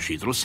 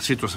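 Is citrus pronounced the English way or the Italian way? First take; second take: Italian; English. First: The word is pronounced the Italian way. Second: The word is pronounced the English way. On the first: The speaker calls it right. "meglio citrus" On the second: The speaker calls it wrong. "citrus fa un po' inglese in effetti"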